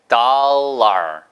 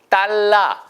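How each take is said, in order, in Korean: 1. r 발음이 섞인 모음 소리로 끝나요. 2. r 없이 평범한 모음으로 끝나요. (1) "거기다가 R만 붙여보세요" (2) "이게 달러 아니고요"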